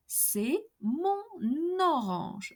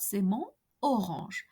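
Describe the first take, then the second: First: "C'est mon orange" with the N sounded into orange, slow; slow, careful "mon-n-orange" liaison; clear liaison. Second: "C'est mon orange" with nasal "mon" and no N before orange; wrong take, no liaison on "mon orange". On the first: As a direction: carry the N of "mon" onto "orange". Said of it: "pronounce clearly the liaison". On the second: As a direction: break between "mon" and "orange". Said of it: "and not". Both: Shown as a demonstration.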